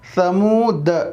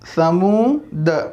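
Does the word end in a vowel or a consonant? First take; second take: consonant; consonant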